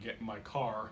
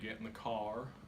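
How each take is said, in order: First: It is said in a Cleveland accent. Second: It is said in a drawn-out Southern accent.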